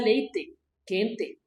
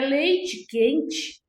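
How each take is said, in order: First: The final e vowels sound like e. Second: The final e vowels sound like i. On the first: This is how it is said in the border towns. "pronunciam o E com som de E mesmo" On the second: This is how it is said in this region. "O E pelo I"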